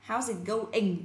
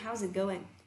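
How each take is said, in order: First: Going ends with a full ng sound. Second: Going ends early with an n sound. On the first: The speaker calls it wrong. "chúng ta sẽ không nói như này là" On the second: The speaker calls it right. "mà cô nói là"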